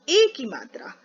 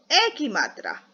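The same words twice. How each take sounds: First: ए said as a clear close e sound; teacher stresses ए as e; name the e matra crisply; e vowel sign. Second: ए said as the open ai sound of बैल; teacher stresses ए as the open ai; name the ai matra, opening the vowel; ai vowel sign. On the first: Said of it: "सिर्फ अलग-अलग मात्राएं लगाने से कैसे अर्थ बदल रहा है". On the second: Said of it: "कैसे अलग-अलग मात्रा के प्रयोग से". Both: Shown as a demonstration.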